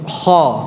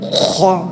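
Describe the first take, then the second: First: The kh is made softly and lightly. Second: The kh is made deep and rasping in the throat. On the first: The speaker calls it right. "Kha yang lembut" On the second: The speaker calls it wrong. "jangan dalam-dalam"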